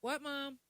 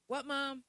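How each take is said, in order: First: Loud, higher polite reply; the polite kid's answer; respectful answer. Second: Put-on loud, higher child's reply; respectful answer. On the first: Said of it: "Which one would you get slapped". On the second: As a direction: answer mom as a polite kid. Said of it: "they be like". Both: Shown as a demonstration.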